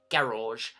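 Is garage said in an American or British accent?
British. It is said with a British accent. "They didn't say things like garage"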